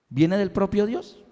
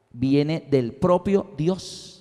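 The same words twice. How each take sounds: First: "viene del propio Dios" rising at the end like a question; questioning echo. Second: Slow, spaced-out "viene del propio Dios"; emphatic statement. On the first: Preacher checks the point with the congregation, questioning echo. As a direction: ask "viene del propio Dios", softer, lifting the last word. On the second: Preacher gives his conclusion to the congregation, slow emphatic statement. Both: Shown as a demonstration.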